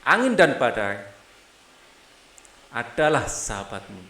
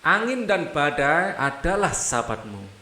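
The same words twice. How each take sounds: First: The line is read with an inner pause. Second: The line is read without an inner pause.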